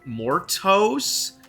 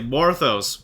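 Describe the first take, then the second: First: The middle consonant is a plain t sound. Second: The middle consonant is a th sound. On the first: The speaker calls it wrong. "most people struggle to say my name" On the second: The speaker calls it right. "no, it's like Morthos, more those"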